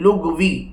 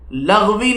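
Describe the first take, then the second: First: The first vowel is u. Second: The first vowel is a. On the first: The speaker calls it right. "यहाँ पर याद रखें लुग़वी" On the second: The speaker calls it wrong. "लग़वी नहीं कहना है"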